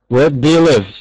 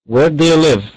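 The two takes are said the same way.

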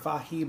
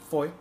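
First: The name does not sound like 'Foy'. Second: The name sounds like 'Foy'. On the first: The speaker calls it wrong. "I would have really assumed it would have been Fahie" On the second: The speaker calls it right. "apparently it's pronounced F-O-Y, Foy"

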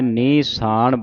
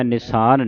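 First: The first vowel is a long i. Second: The first vowel is a short i. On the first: The speaker calls it right. "ਨਿਸਾਨ ਬੋਲਣਾ ਹੈ" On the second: The speaker calls it wrong. "ਨਿਸਾਨ ਨਹੀਂ ਕਹਿਣਾ"

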